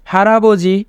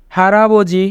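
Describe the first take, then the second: No difference in how they are said.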